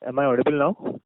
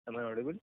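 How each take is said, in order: First: Raised-volume sound check, rising at the end; louder. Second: Soft, rising sound check; too quiet. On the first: Caller asked by the operator to speak up, now louder. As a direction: speak up clearly over the line. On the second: Caller checking the line with the operator, too quietly. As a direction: ask it well under normal volume. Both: Real, not acted. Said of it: "Can you speak a bit louder".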